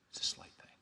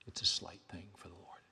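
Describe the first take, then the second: First: Soft unvoiced whisper; whispered echo. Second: Said in the usual way. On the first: Preacher repeats his point to the church, whispering. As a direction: breathe it out like a secret. Refrain echoed in a hush.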